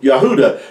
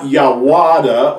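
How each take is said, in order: First: The middle syllable has an oo vowel sound. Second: The middle syllable starts with a w sound. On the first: The speaker calls it right. "You hear the ooh" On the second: The speaker calls it wrong. "It's not Yawada"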